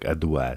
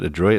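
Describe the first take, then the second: First: It is said with a French-style final 'wa' sound. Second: It is said with an English-style final 'roit' sound. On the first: "It looks more like adouat" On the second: "Is that how you pronounce it?"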